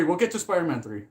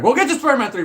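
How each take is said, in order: First: Said in the usual way. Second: High and loud excited promise. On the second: Real, not acted. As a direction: blurt it out eagerly. Repeats promise, first louder.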